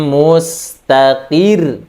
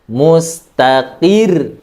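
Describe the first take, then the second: The two takes are said the same way.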